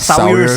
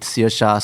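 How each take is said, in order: First: The name is said as 'Sawyers'. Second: The name is said as 'Searsha'. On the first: This is how the spelling seems to read. "we might actually like want to pronounce it Sawyers" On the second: This is the actual pronunciation of the name. "This is pronounced Searsha"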